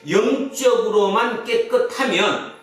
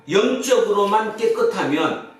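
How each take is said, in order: The two takes are said the same way.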